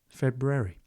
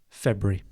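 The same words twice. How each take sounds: First: It is said copying another person's different pronunciation. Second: It is said in the speaker's own usual pronunciation. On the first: "If you want to sound like my wife" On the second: "That is how I pronounce it"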